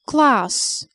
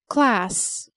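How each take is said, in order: First: It is said with a British accent. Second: It is said with an American accent. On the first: "the British pronounce it a" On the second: "the Americans a"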